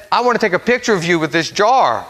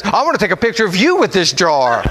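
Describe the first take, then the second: First: Said in the usual way. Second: Retold reply with the emphasis thrown onto "you"; stress on YOU. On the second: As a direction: echo it back, leaning hard on "you". Echoes his words, reversing who.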